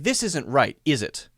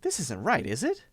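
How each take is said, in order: First: It sounds certain, expecting agreement. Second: It sounds uncertain and confused, really asking.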